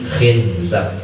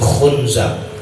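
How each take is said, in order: First: The first vowel is an i sound. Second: The first vowel is a u sound. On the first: "ada yang mengkasrohkannya" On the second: "man dhammaha"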